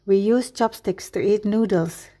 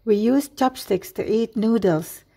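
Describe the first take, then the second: The two takes are said the same way.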